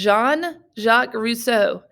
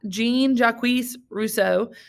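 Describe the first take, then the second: First: The name is given a French pronunciation. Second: The name is given an English-style pronunciation. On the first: The speaker calls it right. "It is Jean. It's French" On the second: The speaker calls it wrong. "a lot of people, you know, mispronounce his name"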